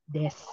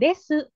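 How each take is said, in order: First: The final u vowel is nearly silent. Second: The final u vowel is clearly voiced. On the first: The speaker calls it right. "tapi des" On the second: The speaker calls it wrong. "Bukan desu"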